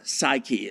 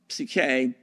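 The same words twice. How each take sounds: First: It is pronounced the English way. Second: It is pronounced the Greek way.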